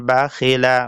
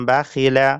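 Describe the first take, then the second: Both takes have the same delivery.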